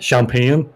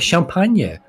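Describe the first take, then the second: First: The word has an English pronunciation. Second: The word has a French pronunciation. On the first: The speaker calls it wrong. "not champagne" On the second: The speaker calls it right. "it's champagne"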